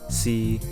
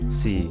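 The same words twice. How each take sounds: First: It is said with Cantonese tone three. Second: It is said with Cantonese tone four.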